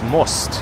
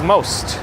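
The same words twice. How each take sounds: First: The word is said with a Russian accent. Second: The word is said with an English accent. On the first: The speaker calls it right. "how a Russian person would say the word most with the Russian accent" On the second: The speaker calls it wrong. "it's not pronounced as most"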